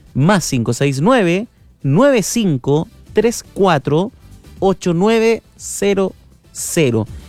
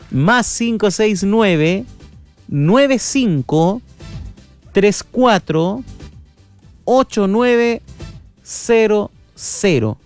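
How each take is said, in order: First: It is said at a normal pace. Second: It is said more slowly.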